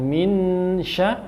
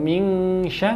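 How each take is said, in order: First: The n is pronounced as a clear n. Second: The n is pronounced as a full ng. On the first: "bukan min sya" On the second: "atau ming sya"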